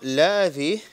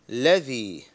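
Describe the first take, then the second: First: The vowel after l is stretched long. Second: The vowel after l is short. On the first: The speaker calls it wrong. "This is not ladhi" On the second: The speaker calls it right. "this is ladhi"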